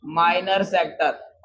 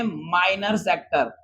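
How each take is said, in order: First: Slow repeat. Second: Slow term. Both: Shown as a demonstration. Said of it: "क्या बोलेंगे?".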